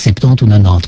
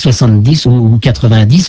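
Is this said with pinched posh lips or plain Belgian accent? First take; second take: plain Belgian; pinched posh. First: It is said in a plain, relaxed Belgian accent. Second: It is said with tightly pinched, affected lips. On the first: "mais pas" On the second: "avec l'accent belge, mais avec les lèvres très pincées"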